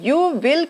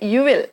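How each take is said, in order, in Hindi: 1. दोनों शब्द पूरे और अलग-अलग बोले जाते हैं। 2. शब्द जल्दी से आपस में मिलाकर छोटे कर दिए जाते हैं। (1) "यू विल की जगह पे" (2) "यू विल जल्दी से बोलेंगे"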